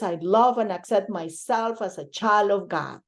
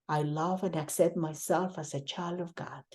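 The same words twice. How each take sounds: First: It is said loudly and fully voiced. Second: It is said at ordinary speaking volume. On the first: "repeat out loud first" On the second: "in a normal voice"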